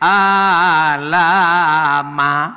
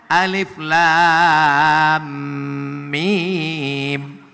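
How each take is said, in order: First: The letters are blended into one short word. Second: Each letter is spoken by its full name. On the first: The speaker calls it wrong. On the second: The speaker calls it right.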